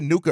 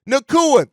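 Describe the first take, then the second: First: The name is said with two syllables. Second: The name is said with three syllables. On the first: The speaker calls it wrong. "I said Nuka earlier" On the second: The speaker calls it right. "that's how you say it"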